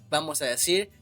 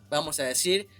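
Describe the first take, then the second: Both takes have the same delivery.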